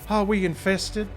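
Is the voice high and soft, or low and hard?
high and soft. The voice is higher and softer. The speaker calls it right. "it should be a little higher and softer"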